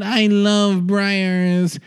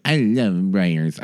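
First: High, very slow mock-orgasmic impression; Bernadette Peters. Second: Low, lightly voiced star impression; a tentative, low-pitched commercial impression; Bernadette Peters. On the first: Star swooning over yogurt in an ad, high mock-ecstatic drawl. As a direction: stretch each word out in hammed-up bliss. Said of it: "it's literally Bernadette Peters having an orgasm". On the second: Podcaster attempting a star's yogurt ad, low sensual impression. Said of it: "I can't do an impression of her".

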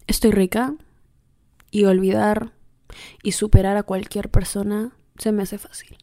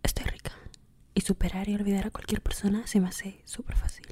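First: A light, understated seductive murmur to the mirror. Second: Soft, breathy seductive whisper, much softer. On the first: Telling herself she's irresistible in the mirror, mildly seductive. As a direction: purr it to yourself, only half committed. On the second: Listeners copy her mirror pep talk, in a soft seductive whisper. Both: Shown as a demonstration. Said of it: "Así con esa voz seductora".

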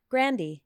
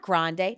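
First: [name] said GRAN-dee, like candy; corrected pronunciation. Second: [name] said GRAHN-day; mistaken pronunciation. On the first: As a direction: end [name] on "dee", short "a" first. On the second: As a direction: end [name] on "day", broad "ah" first. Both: Shown as a demonstration. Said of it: "Not [name]".

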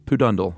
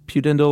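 First: Pudendal with stress on DUN, said poo-DUN-dal; second pronunciation. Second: Pudendal with stress on DEN, said pyoo-DEN-dal; first pronunciation. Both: Shown as a demonstration. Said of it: "I'm not sure which".

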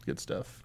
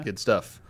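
First: Breathy whisper, much softer. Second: Said in the usual way. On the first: Shown as a demonstration. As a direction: whisper it back like an echo. Same words repeated, whispered.

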